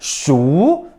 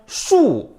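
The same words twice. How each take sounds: First: The pitch rises from mid to high. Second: The pitch falls sharply from high to low. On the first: "이성" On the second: "사성"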